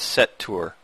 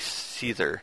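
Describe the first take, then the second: First: The name sounds like 'set tour'. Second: The name sounds like 'seether'. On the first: The speaker calls it right. "pronounced as set tour" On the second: The speaker calls it wrong. "I pronounced it wrong"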